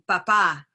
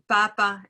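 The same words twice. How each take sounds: First: The stress is on the second syllable. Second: The stress is on the first syllable. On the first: "second syllable stress" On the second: "first syllable stress"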